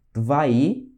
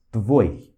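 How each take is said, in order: First: "Tvai" with the i stretched; long Russian I. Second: "tvoi" as one clipped syllable, lower; short Russian I. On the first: Teacher demonstrating for students, long I held. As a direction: hold the final i of "Tvai". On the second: Teacher demonstrating for students, short I kratkaya. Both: Shown as a demonstration. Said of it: "olha só a diferença".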